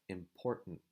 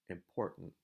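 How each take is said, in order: No difference in how they are said.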